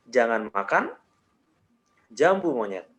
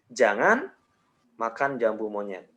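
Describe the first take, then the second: First: There is a pause after makan. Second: There is a pause after jangan. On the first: "jeda yang berikutnya gue kasih di setelah makan" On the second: "jedanya gue kasih di jangan"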